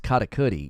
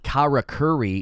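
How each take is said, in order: First: The r is a quick bounced tap. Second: The r sounds like an English r. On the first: The speaker calls it right. "You're supposed to bounce off the the R's" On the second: The speaker calls it wrong. "It's not karakuri"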